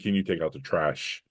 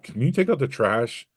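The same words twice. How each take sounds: First: It is asked in a calm, neutral tone. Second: It is asked in an irritated, exasperated tone. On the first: It is a simple everyday request. "not the hey, can you take out the trash? You know, question that you asked" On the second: Frustration from something else spills into the request. "the tone you're conveying is the problem email con- tone"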